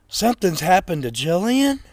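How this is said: It is said with surprise.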